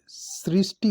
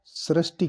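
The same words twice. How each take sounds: First: सृष्टि said "srishti"; correct pronunciation. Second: सृष्टि said "srashti", with an a vowel; wrong pronunciation. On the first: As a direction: give सृष्टि a clear "ri". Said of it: "सृष्टि होता है ये". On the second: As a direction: say सृष्टि with "sa-rash". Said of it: "ये अशुद्ध है". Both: Shown as a demonstration.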